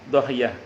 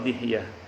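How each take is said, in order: First: The first vowel is an open 'a'. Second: The first vowel is a close 'i'. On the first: "Bisa dibaca fathah" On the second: "bisa dengan kasrah"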